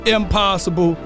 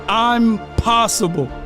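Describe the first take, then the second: First: It is said at normal speed as one word. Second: It is said slowly, split into two words. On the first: Something cannot be done. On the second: The speaker is capable.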